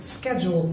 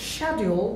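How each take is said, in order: First: Schedule said as SKEJ-ool; alternative pronunciation. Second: Schedule said as SHAD-yool; British pronunciation. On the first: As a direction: start schedule with a hard sk. (schedule-কে স্কেজুল) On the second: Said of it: "British উচ্চারণ হচ্ছে". (schedule British ঢঙে শেডিউল) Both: Shown as a demonstration.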